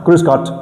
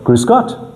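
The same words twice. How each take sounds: First: The voice falls at the end. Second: The voice rises at the end.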